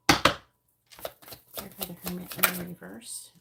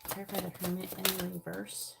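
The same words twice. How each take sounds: First: "Clarify the Hermit in the reverse" stretched out slowly and said louder; slow, insistent repeat. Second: Said in the usual way. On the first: Real, not acted. Repeating her card request, slow and insistent. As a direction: draw each word out slowly, like asking one more time.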